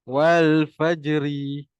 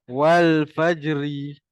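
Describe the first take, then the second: Both takes have the same delivery.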